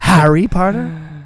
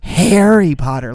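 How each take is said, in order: First: The first word does not sound like 'hairy'. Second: The first word sounds like the word 'hairy'. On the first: The speaker calls it right. "do you mean Harry Potter?" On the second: The speaker calls it wrong. "like a hairy arm"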